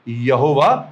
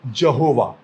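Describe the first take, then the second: First: The name begins with a Y sound. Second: The name begins with a J sound. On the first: The speaker calls it right. "सही अनुवाद क्या है?" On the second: The speaker calls it wrong. "जहोवा Hebrew यहवे का गलत अनुवाद है"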